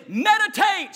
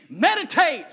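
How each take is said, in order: First: Shouted call. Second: Lead the repeat. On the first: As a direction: belt Meditate high and loud for them to repeat. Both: Shown as a demonstration. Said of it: "Say that word with me".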